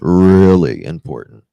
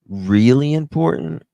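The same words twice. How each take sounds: First: It is said in a deep voice. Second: It is said in a normal voice.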